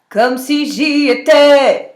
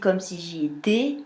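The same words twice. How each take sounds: First: The final vowel is said open. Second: The final vowel is said closed. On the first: "ça ouvre" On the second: "ça referme le son, c'est pas beau"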